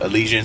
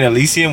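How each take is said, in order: First: The name ends with an 'an' sound. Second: The name ends with an 'um' sound. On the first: The speaker calls it right. "I'm gonna go with Elysian. Sounds better" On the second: The speaker calls it wrong. "I've been saying Elysium, which I think is wrong"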